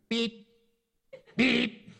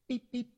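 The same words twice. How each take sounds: First: It is said with mild irritation. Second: It is said softly and gently.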